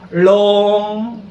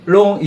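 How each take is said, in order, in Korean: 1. 처음의 L은 'eul-long'처럼 길게 끕니다. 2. 처음의 L은 짧고 평범합니다. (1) "을롱 비슷하게 발음해야 돼" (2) "그냥 long 이게 아니고요"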